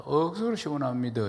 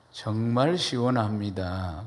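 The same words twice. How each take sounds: First: Lightly imitated Gyeongsang lilt; Gyeongsang dialect. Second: Said in the usual way. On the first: Shown as a demonstration. Preacher contrasting it with standard Korean, Gyeongsang dialect. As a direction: say it as a Gyeongsang local would. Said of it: "경상도 말로". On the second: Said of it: "표준어".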